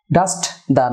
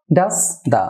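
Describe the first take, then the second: First: ডাস্ট দা with the t sounded; wrong pronunciation. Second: ডাস দা with no t, "das-da"; correct linking. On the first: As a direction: keep ডাস্ট and দা apart with a clear t. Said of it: "নয়". (ডাস্ট দা, স্পষ্ট "ট" দিয়ে) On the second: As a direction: glide from ডাস straight into দা. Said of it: "ডাস্ট দা নয়". (ডাস দা, "ট" ছাড়া মিলিয়ে) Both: Shown as a demonstration.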